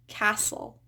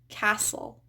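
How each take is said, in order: First: The T sound is silent. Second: The same.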